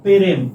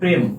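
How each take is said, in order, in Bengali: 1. একটি স্বরধ্বনি শুরুর ব্যঞ্জনগুলোকে আলাদা করে, তাই দুটি দল। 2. শুরুর ব্যঞ্জনগুলো একসাথে উচ্চারিত হয়, তাই একটি দল।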